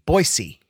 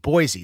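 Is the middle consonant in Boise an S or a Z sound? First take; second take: S; Z. First: The middle consonant is an s sound. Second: The middle consonant is a z sound. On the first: This is how people from the city say it. The speaker calls it right. "They say it with a S" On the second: This is how people from elsewhere say it. The speaker calls it wrong. "people not from Boise say it with a Z"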